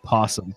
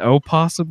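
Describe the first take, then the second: First: The word starts directly with the P sound. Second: The word starts with an O vowel before P. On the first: "I pronounce it possum" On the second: "they have the O in front of it"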